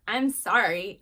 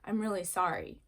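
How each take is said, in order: First: Loud, grudging sorry; insincere apology. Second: Mean the apology, gently; sincere apology. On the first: Child made to apologize, loud and insincere. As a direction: blurt an apology you don't mean. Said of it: "it's how you say it". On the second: Child making amends to a sibling, sincere. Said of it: "different meanings". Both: Shown as a demonstration.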